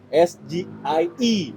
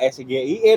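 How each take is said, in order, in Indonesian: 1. Huruf-hurufnya dibaca dengan nama huruf bahasa Inggris. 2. Huruf-hurufnya dibaca dengan nama huruf bahasa Indonesia. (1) "Itu paling tepat. Kalau merujuk pada singkatan di uh, bahasa asing" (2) "Harusnya juga pengucapannya nggak S G I E dong"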